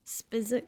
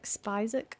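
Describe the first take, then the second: First: Spizik with a short i, as in spit; short-i pronunciation. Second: Spizik with a long i, like spy; long-i pronunciation. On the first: Player puzzling over a name, Spizik with short i. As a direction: say Spizik to rhyme with physic. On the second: Player puzzling over a name, Spizik with long i. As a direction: say Spizik starting like the word spice. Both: Real, not acted. Trying out how a name reads.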